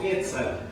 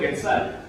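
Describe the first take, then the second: First: The stress is on the first syllable. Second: The stress is on the last syllable. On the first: It is read as a Nahuatl word. "si yo lo leo en náhuatl ... en náhuatl toda la pronunciación es grave" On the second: It is read as a Spanish word. "Si yo lo leo en español"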